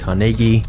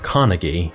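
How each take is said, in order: First: The name is pronounced the Scottish way. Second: The name is pronounced a non-Scottish way. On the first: "this is how the Scots actually pronounce it" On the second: "instead of"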